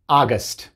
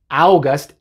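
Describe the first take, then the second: First: The first vowel is a plain 'ah' sound. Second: The first vowel glides from 'ah' to 'oo'. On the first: The speaker calls it right. "Se dice August" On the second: The speaker calls it wrong. "August es incorrecto"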